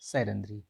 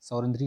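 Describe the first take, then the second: First: The first syllable has the vowel 'ai'. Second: The first syllable has the vowel 'au'. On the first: The speaker calls it right. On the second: The speaker calls it wrong. "सौरंध्री नहीं"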